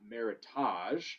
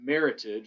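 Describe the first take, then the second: First: The ending sounds different from the end of heritage. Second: The ending sounds like the end of heritage. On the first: The speaker calls it wrong. "not Meritage, which is a common misconception" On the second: The speaker calls it right. "it's pronounced Meritage"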